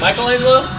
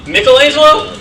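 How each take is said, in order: First: The name is said in a common American pronunciation. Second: The name is said in its original pronunciation. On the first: The speaker calls it wrong. "a lot of Americans say" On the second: The speaker calls it right. "you're supposed to pronounce the name"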